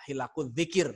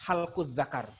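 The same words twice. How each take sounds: First: "Hilakul dzikir" read as hi-la-kul dzikir, the correct way; "Hilakul dzikir" read carefully with i in hi-la-kul. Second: "Halkul zakar" read as halkul zakar, the mistaken way; "Halkul zakar" with a in hal-kul and za-kar; mock wrong reading. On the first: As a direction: say "Hilakul dzikir" as ah teacher modelling the right reading. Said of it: "Harusnya bacanya gitu". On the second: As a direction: imitate a know-it-all misreading "Halkul zakar". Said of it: "orang yang sok tahu bacanya apa". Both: Shown as a demonstration.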